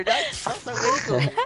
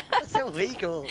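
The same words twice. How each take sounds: First: High-pitched. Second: Said in the usual way. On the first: Real, not acted. Protesting being filmed.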